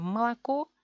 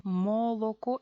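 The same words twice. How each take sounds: First: Malaco as quick ma-la-KO; Russian-style Malaco, first two vowels turned to a; easy reduced form. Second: Moloco with every o fully rounded; higher, laboured mo-lo-ko for Moloco; effortful full vowels. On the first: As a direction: Malaco with relaxed a's and stressed final o. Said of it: "es mucho más fácil". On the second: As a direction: Moloco pronounced exactly as spelt, no reduction. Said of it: "es mucho esfuerzo". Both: Shown as a demonstration.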